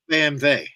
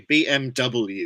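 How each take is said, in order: First: The W is said the German way, as 'vay'. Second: The W is said the English way, 'double-u'. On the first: This is how Germans say it. "It's like uh, like B M, B M W" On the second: This is how the English say it. "Whereas we say B M W"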